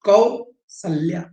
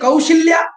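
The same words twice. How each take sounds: First: The middle consonant is a hissing 's' sound. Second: The middle consonant is a hushing 'sh' sound. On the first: The speaker calls it right. "दंत सा होता है, तालव्य सा नहीं होता है" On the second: The speaker calls it wrong. "गलत लिखा हुआ है"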